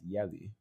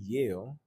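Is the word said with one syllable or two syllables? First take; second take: two syllables; one syllable. First: The word is said as two syllables, Yali. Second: The word is said as one syllable, Yale. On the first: "pronouncing Yale as Yali" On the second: "pronouncing Yale as Yali"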